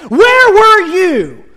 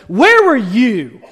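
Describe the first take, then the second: First: Higher, louder, very slow with heavy stress on where; God thundering. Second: Slow, heavy stress on where; God pressing Job, slow and firm on where; God demanding. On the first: God demands of Job, slow, loud and thundering. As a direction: boom the question down at Job. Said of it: "And God goes". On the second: God asks Job, slow and measured, leaning on where. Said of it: "He says". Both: Retold or imitated.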